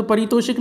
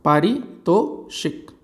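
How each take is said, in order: First: परितोषिक, with a short "pa" at the start, said as the mistake; quick परितोषिक with a short first vowel; wrong form. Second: पारितोषिक, very slow, with a long "paa" at the start; correct pronunciation. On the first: Teacher naming the wrong form before correcting it. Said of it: "परितोषिक नहीं". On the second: Teacher drilling the right form for exam students, very slowly. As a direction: spell out पारितोषिक syllable by syllable, opening on "paa". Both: Shown as a demonstration.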